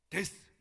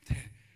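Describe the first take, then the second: First: The word ends with a clear s sound. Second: The word ends with a soft th sound. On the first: The speaker calls it wrong. "제가 데스 그랬네" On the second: The speaker calls it right. "데 발음을 잘해야 돼"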